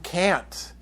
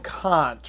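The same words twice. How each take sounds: First: The vowel is pronounced as something other than 'ah'. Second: The vowel is pronounced as an open 'ah' sound. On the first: The speaker calls it wrong. "There's plenty of people out there who will call him Kant" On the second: The speaker calls it right. "The ah sound"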